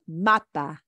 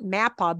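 First: Mapa with open "ah" vowels; correct Spanish pronunciation. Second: Mappa with A as in English "map"; wrong English pronunciation. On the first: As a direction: say mapa as "MAH-pah". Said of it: "but it's pronounced". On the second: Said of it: "it's pronounced not mappa". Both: Shown as a demonstration.

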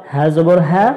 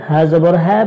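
The two takes are said the same way.

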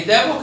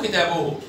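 First: كتابه said as "kitaboh"; sukun on haa. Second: كتابه said as "kitabuhu"; damma on haa. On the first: Teacher summarizes for a pupil, كتابه ending in -oh. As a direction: end كتابه on h. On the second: Teacher summarizes for a pupil, كتابه ending in -uhu. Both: Shown as a demonstration. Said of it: "هاء وهاء".

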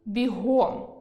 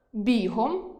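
First: Бігом stressed on the last syllable, бігОм; бігом, adverb stress. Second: Бігом stressed on the first syllable, бІгом; бігом, noun stress. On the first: Teacher demonstrates adverb stress, бігОм. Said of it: "прислівник". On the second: Teacher demonstrates noun stress, бІгом. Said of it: "іменник". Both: Shown as a demonstration.

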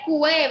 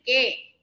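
First: "cue" as KWE, with audible U; the mistaken "cue", U sounded; U pronounced. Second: "que" as KE, no w glide; the correct "que", U left out; silent U. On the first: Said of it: "No dije cue". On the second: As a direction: say "que" with a plain K plus e. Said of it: "Dije que". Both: Shown as a demonstration.

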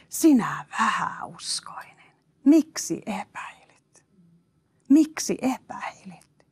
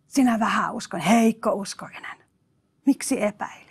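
First: Slow hushed whisper of a rebuke; Jesus gently rebuking Peter in a slow whisper. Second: Said in the usual way. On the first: Acted. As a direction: whisper it slowly like a gentle reproach.

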